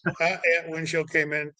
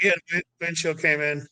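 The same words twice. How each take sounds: First: A touch quieter, flat and unbothered; calm even tone. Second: Unbothered, matter-of-fact report; calm even tone. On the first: Josh downplaying the crash to his friend, calm. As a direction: shrug it off completely. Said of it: "it was just". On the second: Josh on the radio telling the crew chief, calm. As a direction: say it like it's nothing. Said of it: "that was the voice, like, that was the tone". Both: Retold or imitated.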